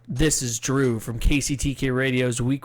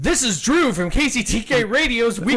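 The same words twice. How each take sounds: First: It is read flatly with little energy. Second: It is read hyped, fast and energetic.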